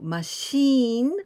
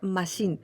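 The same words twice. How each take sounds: First: The final vowel is held long. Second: The final vowel is kept short.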